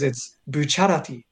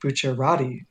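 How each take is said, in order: First: The stress falls on the syllable cha. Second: The stress falls on a syllable other than cha.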